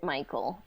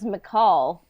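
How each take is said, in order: First: The name is said like 'Michael'. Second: The name is said like 'McCall'. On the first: The speaker calls it wrong. "I always pronounced it Michael" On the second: The speaker calls it right. "his name's McCall"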